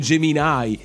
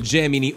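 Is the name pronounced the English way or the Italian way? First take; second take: English; Italian. First: The name is pronounced the English way. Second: The name is pronounced the Italian way.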